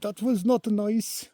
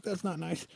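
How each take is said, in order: First: High, loud mock German accent, drawn out; bad German accent. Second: High mock female voice, without the accent; quoted hiker's complaint. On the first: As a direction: imitate a startled German woman with a clumsy accent. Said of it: "or whatever her accent was. I'm not good at accents either". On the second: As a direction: retell her complaint in a high-pitched voice. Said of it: "But anyway, she's like".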